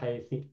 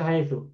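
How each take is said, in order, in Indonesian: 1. Kata ini berakhir dengan vokal i. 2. Kata ini berakhir dengan vokal u. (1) "tidak haitsa atau haitsi" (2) "Dibaca haitsu"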